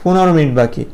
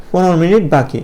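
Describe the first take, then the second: No difference in how they are said.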